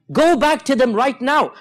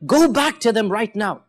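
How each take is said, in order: First: The Prophet's command said again, slow and insistent; firm repeated command. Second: Said in the usual way. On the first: Retold or imitated. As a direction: lean hard into "Go back to them right now" as an urgent order.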